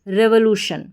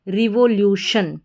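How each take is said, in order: First: The first syllable has a short 'reh' vowel. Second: The first syllable has a long 'ree' vowel. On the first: "तो रे व" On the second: "R E को री पढ़ देंगे"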